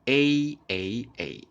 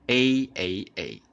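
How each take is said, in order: Both takes have the same delivery.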